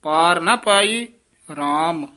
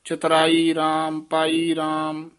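First: Slow, with a gap between ਪਾਈ and ਰਾਮ; ਰਾਮ set apart. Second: No gap between ਪਾਈ and ਰਾਮ; ਰਾਮ wrongly joined. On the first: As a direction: stretch ਪਾਈ, pause, then say ਰਾਮ. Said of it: "ਰਾਮ ਪਦ ਨੂੰ ਨਖੇਰ ਕੇ ਪੜ੍ਹਨਾ ਹੈ". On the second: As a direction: run ਰਾਮ straight on from ਚਤੁਰਾਈ and ਪਾਈ. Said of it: "ਇਸ ਤਰ੍ਹਾਂ ਨਹੀਂ ਕਹਿਣਾ". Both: Shown as a demonstration.

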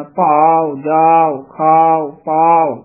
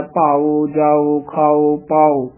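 First: ਭਾਵ, ਜਾਓ, ਖਾਓ, ਪਾਓ with long aa closing to short u; closed-mouth ending. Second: ਭਾਵ, ਜਾਓ, ਖਾਓ, ਪਾਓ ending in a full open o; open-mouthed ending. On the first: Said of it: "ਬੰਦ ਮੂੰਹ ਵਾਲੇ ਊੜੇ ਦਾ ਉਚਾਰਨ". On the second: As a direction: round out a separate o on each word. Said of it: "ਊੜਾ ਖੁੱਲੇ ਮੂੰਹ ਵਾਲਾ". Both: Shown as a demonstration.

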